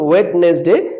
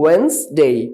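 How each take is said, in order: First: The 'd' is sounded, giving three full syllables. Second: The 'd' is silent, giving 'wenz-day'. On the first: The speaker calls it wrong. "এটাকে আমরা বলতাম ওয়েডনেসডে" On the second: The speaker calls it right. "But it will be ওয়েন্সডে"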